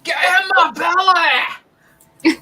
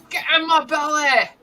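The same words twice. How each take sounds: First: Much higher, slow, shouted movie-villain line; Fat Bastard impression. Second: Higher, unshouted second go at the catchphrase; Fat Bastard impression. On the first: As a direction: bellow it out slowly like a greedy brute. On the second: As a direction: repeat the line at normal volume in the put-on voice. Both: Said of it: "Is that fat bastard?".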